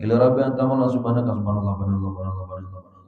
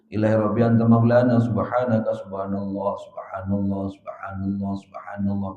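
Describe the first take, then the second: First: It is recited hurriedly and quickly. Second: It is recited calmly and slowly.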